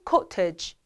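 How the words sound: It is said in a British accent.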